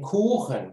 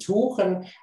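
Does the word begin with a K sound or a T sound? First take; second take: K sound; T sound. First: The word begins with a k sound. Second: The word begins with a t sound. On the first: The speaker calls it right. "ach, du meinst den Kuchen" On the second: The speaker calls it wrong. "du meinst zum Beispiel anstatt den Tuchen"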